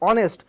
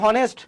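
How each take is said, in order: First: The word begins with a vowel, no h. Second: The word begins with a sounded h. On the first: The speaker calls it right. "এইচটিকে উচ্চারণ করি না" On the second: The speaker calls it wrong. "আমরা কিন্তু হনেস্ট বলি না"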